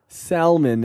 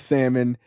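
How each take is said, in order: First: The L in the word is pronounced. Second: The L in the word is silent. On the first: The speaker calls it wrong. "as I hear people say it" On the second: The speaker calls it right. "the L in salmon is silent"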